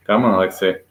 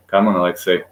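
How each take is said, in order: Both takes have the same delivery.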